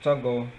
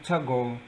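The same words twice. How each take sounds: First: The syllables are run together quickly into one. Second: The same.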